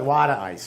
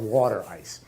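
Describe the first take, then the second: First: Water is said with a D-like sound, 'wadda'. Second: Water is said with a clear T sound.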